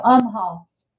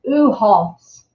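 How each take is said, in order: First: "Umhoff's" with a clear m, "um-hoffs"; corrected name. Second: "Uhoff's" said with no m, "uh-hoffs"; the misspoken "Uhoff's", no m sound; wrong name. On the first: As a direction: fix it, "Umhoff's" with an m. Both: Real, not acted. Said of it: "no, Umhoff's".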